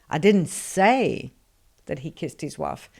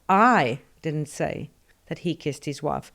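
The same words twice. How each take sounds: First: The stress falls on the word that. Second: The stress falls on the word I. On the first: Something else was said. "So I said something, but it wasn't that" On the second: Someone else said it. "presupposes somebody said it, but it wasn't me"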